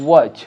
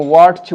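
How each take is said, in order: First: "ওয়াচ" with no t, falling; silent t. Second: "ওয়াচ" with a t before ch; wrong "ওয়াচ" with audible t; wrong pronunciation. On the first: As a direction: say "ওয়াচ" lower, as "wach". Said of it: "টি silent". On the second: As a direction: say "ওয়াচ" as "wat-ch", voicing the t. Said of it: "ওয়াচ বলবো না". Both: Shown as a demonstration.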